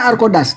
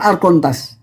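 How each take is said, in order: First: The middle consonant sounds like a plain d. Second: The middle consonant sounds like n plus t. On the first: This is how the word is spoken. "pronunciation-nya Arkodas" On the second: This is how the word is written. "tulisan Arkontas"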